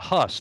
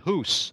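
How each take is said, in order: First: The vowel sounds like the one in bus. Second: The vowel sounds like the one in goose. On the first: This is the English way of saying it. "we pronounce it a Huss" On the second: This is the local way of saying it. "probably they pronounce it Hus"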